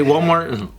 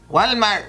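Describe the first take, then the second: First: Said in the usual way. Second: Mock Mexican-accented Walmart, higher; fail the test with a Mexican-accented Walmart. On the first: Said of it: "Can you say Walmart?". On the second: Shown as a demonstration. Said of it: "dead giveaway if they're paisa".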